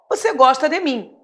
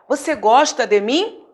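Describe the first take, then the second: First: It is said as a plain statement. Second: It is said as a question.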